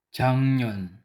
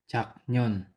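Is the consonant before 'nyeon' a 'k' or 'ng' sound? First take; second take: ng; k. First: The middle consonant is a nasal ng sound. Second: The middle consonant is a plain k sound. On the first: The speaker calls it right. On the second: The speaker calls it wrong.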